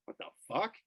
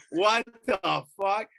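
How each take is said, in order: First: Soft, higher-pitched baffled question; hushed disbelief. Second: Slow, loud, high-pitched indignation; outraged disbelief. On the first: Man hearing a blast near his lab, softly baffled. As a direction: re-enact puzzled disbelief under your breath. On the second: Owner seeing cops battering his lab, loudly incredulous. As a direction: stretch it out in mock outrage. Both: Retold or imitated.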